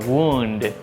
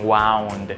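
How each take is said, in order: First: The vowel sounds like 'oo'. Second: The vowel sounds like 'ow'. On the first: The speaker calls it right. "se pronuncia wound con U" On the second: The speaker calls it wrong. "no dicen wound"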